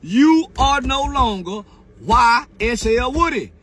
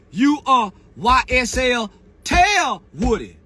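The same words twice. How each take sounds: First: Said in the usual way. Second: Slow shout that lands hard on Tell; stress on Tell. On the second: Shown as a demonstration. Mocking Woody's new name, loud stress on Tell.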